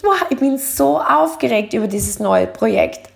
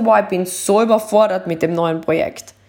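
First: Upbeat, eager; bright excited take; excited version. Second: Low, heavy and weary; sagging overwhelmed take; overwhelmed version. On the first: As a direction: sound thrilled about the project. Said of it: "Aber wenn du sagst". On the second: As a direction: sigh it out, worn down. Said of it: "anstatt zu sagen". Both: Shown as a demonstration.

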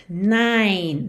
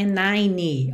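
First: NINE as one syllable ending on N; silent final E. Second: NINE with an extra final ee, "nai-nee"; wrong pronunciation. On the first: Teacher modelling the number, NINE ending cleanly on N. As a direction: finish NINE on a held N, no vowel after. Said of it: "Esse E final do número nove não é pronunciado". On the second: Teacher showing the mistake, NINE said as "nai-nee". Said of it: "não é nine". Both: Shown as a demonstration.

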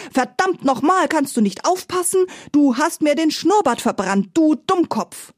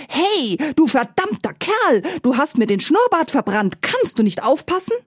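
First: High furious boar voice, much higher; screaming boar. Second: High, shrill-pitched furious boar voice, much higher; screaming roast boar. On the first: Boar chasing Paddy with the spit, high angry shriek. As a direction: shriek the insults while chasing him. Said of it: "schrie dabei". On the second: Roast boar yelling at Paddy about its singed moustache, high angry shriek. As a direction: shriek it like an outraged talking roast pig. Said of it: "sprang vom Spieß und schrie". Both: A narrator's reading.

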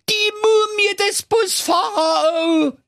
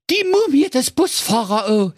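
First: High, slow, drawn-out scream of panic; terrified shout. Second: High, terrified cry with MUMIE stressed; panicked cry. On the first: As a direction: wail it out in full terror. (langgezogener Angstschrei) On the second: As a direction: blurt it out in fright. (ängstlicher Ausruf) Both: Acted. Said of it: "schrie in heller Angst".

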